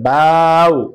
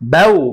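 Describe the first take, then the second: First: The syllable is said slow and drawn out. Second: The syllable is said short and quick. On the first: The speaker calls it wrong. "হবে না, আপনার উচ্চারণ সহি হবে না" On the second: The speaker calls it right. "তাড়াতাড়ি পড়তে হবে।"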